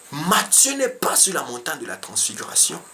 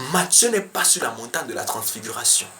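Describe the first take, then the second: Both takes have the same delivery.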